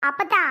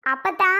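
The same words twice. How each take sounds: First: Said in the usual way. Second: Insistent call. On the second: Real, not acted. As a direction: call அப்பத்தா to cut her off.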